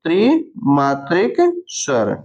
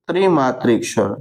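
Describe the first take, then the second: First: Drawn-out, slow dictation of the term; drawn-out teacher dictation. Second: Said in the usual way. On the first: Shown as a demonstration. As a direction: stretch the term out slowly for students to copy. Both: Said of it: "त्रिमात्रिक स्वर बोलते हैं".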